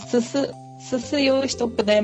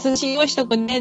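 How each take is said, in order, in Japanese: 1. 寿司は出雲弁の母音で言われている。susuのように。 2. 寿司は標準語の母音ではっきり言われている。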